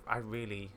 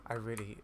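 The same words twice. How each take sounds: The two takes are said the same way.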